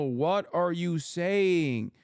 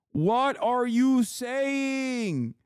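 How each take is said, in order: First: Said in the usual way. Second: High, drawn-out, incredulous repeat of the question; exasperated disbelief. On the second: Acted. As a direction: stretch it out, high and baffled.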